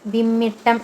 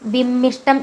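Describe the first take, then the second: First: The middle has a doubled 'tt' sound. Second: The middle has an 'sht' cluster. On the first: The speaker calls it right. "വിമ്മിട്ടം എന്നേ പറയുള്ളൂ" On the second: The speaker calls it wrong. "വിമ്മിഷ്ടം എന്ന് പറയില്ല"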